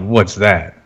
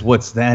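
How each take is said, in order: First: It is said confidently, with swagger. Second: It is said timidly, without swagger.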